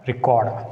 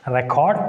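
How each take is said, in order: First: ReCORD, weak "ri", falling at the end; verb stress on second syllable. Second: RECord, open "rek", rising at the end; strong REC in Record, left rising; noun stress on first syllable. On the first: Teacher recapping the verb, stress on second syllable. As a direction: lean on CORD in Record, falling. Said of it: "a verb takes on the second syllable". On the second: Teacher recapping the noun, stress on first syllable. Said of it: "a noun takes the stress on the first syllable". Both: Shown as a demonstration.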